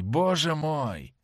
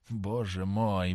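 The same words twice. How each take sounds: First: "боже мой" said higher and very slow, "боже" stressed; the horror breaks out higher; rising exclamation. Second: "Боже мой" said low, soft and very slow; low dismayed cry. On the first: James realising his mistake, a higher, slow cry of dismay. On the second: James realising his mistake, a low, slow groan of dismay. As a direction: sink into horror slowly. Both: A narrator's reading. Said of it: "воскликнул он".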